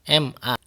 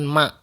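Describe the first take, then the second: First: It is spelled out as separate letters. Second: It is pronounced as one single word. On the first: The speaker calls it right. "kita melafalkannya tetap M A" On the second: The speaker calls it wrong. "Kita tidak melafalkannya dengan ma"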